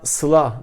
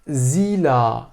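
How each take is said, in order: First: The name starts with an s sound. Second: The name starts with a z sound. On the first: This is how the family says the name. "anne baba tarafından Sıla diye söylenirken" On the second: This is how classmates and people at school say the name. "okuldaki etrafı tarafından Zila diye telaffuz ediliyor"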